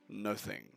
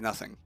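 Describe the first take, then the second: First: The word is said crisply, each syllable enunciated. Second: The word is said loosely, in a casual way. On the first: "a more received pronunciation is nothing" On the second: "you could misconstrue nothing there as being like N U H"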